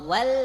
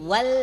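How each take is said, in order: No difference in how they are said.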